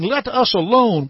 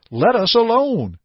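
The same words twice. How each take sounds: First: Spirit's raised cry, read aloud. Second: Raised cry quoted from the possessed man; mock demon cry. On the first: A narrator's reading. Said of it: "he cried out". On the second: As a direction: cry it out like the spirit, lightly. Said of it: "would never cry out".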